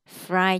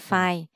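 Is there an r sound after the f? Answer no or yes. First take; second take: yes; no. First: The f is followed by a clear r sound. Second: The word sounds like fai, with no r. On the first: The speaker calls it right. "Fry chứ không phải" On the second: The speaker calls it wrong. "không phải phai"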